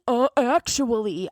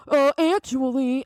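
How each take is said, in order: First: Slow mocking "Uh, actually" with a drawn "Uh"; mock know-it-all. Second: Slow, higher nasal-free mocking "Uh, actually"; mock know-it-all. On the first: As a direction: imitate the smug corrector again. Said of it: "No, any". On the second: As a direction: sneer it like a smug corrector. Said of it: "they're like".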